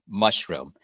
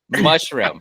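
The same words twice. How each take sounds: First: The word is said in a quiet voice. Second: The word is said at normal volume. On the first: The speaker calls it wrong. "you don't have to say it in like the quiet voice" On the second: The speaker calls it right. "You could just say it in the normal voice"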